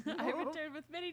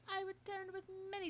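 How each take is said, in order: First: Laughing. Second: Higher voice. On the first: Retake while laughing. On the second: Slipping into a higher voice. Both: Acted.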